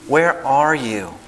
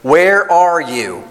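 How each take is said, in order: First: It sounds soft and gentle, like anxious searching. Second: It sounds harsh and angry, like a scolding. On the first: The caller is longing to find someone loved. The speaker calls it right. "he's looking for his son, his treasured possession" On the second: The caller is fed up and demanding. The speaker calls it wrong. "We see Yah with a stick coming through the garden"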